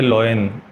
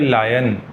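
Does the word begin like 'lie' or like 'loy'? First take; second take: loy; lie. First: The first vowel sounds like 'oy' in boy. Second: The first vowel sounds like 'eye' in lie. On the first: The speaker calls it wrong. "ये शब्द लोयन है ही नहीं" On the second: The speaker calls it right. "ये शब्द है लायन"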